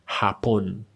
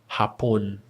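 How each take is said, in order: The two takes are said the same way.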